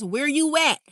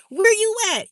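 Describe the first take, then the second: First: Said in the usual way. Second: High, loud walkie-talkie call; mock two-way radio shout; chirp phone call. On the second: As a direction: holler it like a Boost mobile chirp. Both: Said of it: "Remember them chirp phones?".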